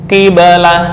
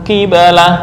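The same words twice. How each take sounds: Both takes have the same delivery.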